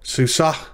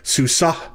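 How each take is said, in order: The two takes are said the same way.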